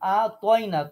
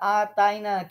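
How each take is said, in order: First: The t is a heavy, emphatic consonant. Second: The t is a plain, light consonant. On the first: The speaker calls it right. "তুয়া" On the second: The speaker calls it wrong. "কিন্তু না"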